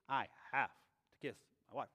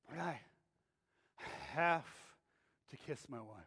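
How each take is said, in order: First: It sounds eager, like a happy wish. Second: It sounds reluctant, like a grudging duty.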